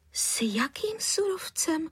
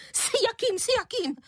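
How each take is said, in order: First: Higher, hushed puzzled question; puzzled surprise. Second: Shrill, much higher echoing repeat; unnaturally high voice. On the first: Mother baffled by caller's accusation, surprised. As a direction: ask in genuine bewilderment. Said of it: "podivila se". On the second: Angry mother mocking the question, unnaturally high. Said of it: "nepřirozeně vysokým hlasem". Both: Acted.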